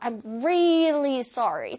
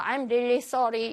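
First: The word really is strongly emphasized. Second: The word really is said flat, without emphasis.

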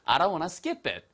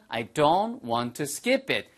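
First: It is said fast. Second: It is said slowly.

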